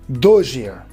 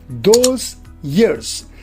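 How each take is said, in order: First: The word 'those' ends with a zh sound. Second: The word 'those' ends with a z sound. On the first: "z is replaced by j" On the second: "the final sound is z"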